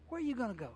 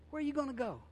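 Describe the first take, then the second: First: "are" carries the weight, "you" left light; stress on ARE. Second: "you" lifted high and hit hardest, falling after; stress on YOU. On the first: Preacher repeating the question, stress on "are". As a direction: lean on "are" in "Where are you gonna go?". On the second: Preacher pressing the congregation, stress on "you". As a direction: lean hard on "you" in "Where are you gonna go?". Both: Shown as a demonstration.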